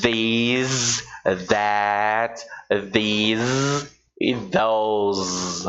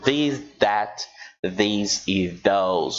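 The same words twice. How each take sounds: First: The sounds are forceful and exaggerated. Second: The sounds are soft and relaxed. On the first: "Estou exagerando na pronúncia" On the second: "você pode falar mais suave"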